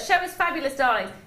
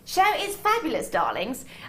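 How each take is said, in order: First: It is read in a normal speaking voice. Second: It is said in a put-on theatrical voice.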